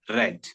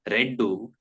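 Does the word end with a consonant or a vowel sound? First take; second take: consonant; vowel. First: The word ends cleanly on the final consonant. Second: An extra vowel is added after the final consonant. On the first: The speaker calls it right. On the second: The speaker calls it wrong.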